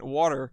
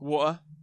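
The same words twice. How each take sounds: First: It is said in an American accent. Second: It is said in a northern English accent. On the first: "he had to pronounce it in an American accent" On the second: "water's a big one"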